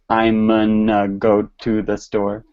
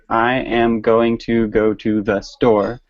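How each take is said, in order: First: The words are contracted and blurred into 'gonna'. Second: Every word is said fully and separately. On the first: This is how people really say it in everyday speech. "I literally just said a completely different sound" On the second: This is the careful form learners are taught. "they'll teach them to say"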